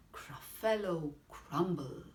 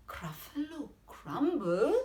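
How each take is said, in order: First: "Gruffalo crumble" as a statement, falling at the end; name "Gruffalo crumble" evenly, settling downward; matter-of-fact menace. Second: "Gruffalo crumble" pitched up, rising sharply at the end; alarmed echo question. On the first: Mouse naming its favourite food to the Gruffalo, "Gruffalo crumble" stated with falling tune. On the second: Gruffalo repeating the mouse's threat, "Gruffalo crumble" as a rising, alarmed question. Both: Acted.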